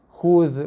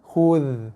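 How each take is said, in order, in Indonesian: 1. Kata itu diakhiri bunyi mirip th yang lembut. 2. Kata itu diakhiri bunyi mirip th yang lembut.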